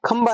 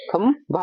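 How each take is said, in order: First: खंबा said with a plain unaspirated b; wrong pronunciation shown. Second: खंभा said slowly, with a breathy aspirated bh; slow, careful खंभा, leaning on the aspirated भ; correct pronunciation shown. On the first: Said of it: "खंबा नहीं होता". (गलत उच्चारण खंबा, बिना महाप्राण के) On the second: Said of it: "ये होता खंभा". (सही उच्चारण खंभा, धीरे और भ पर ज़ोर देकर) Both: Shown as a demonstration.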